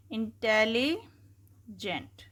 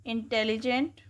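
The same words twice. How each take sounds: First: intelligent drawn out slowly, syllables separated. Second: Said in the usual way. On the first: Shown as a demonstration. Teacher showing students how a long word breaks, slow. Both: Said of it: "तोड़ के पढ़ते हैं हम".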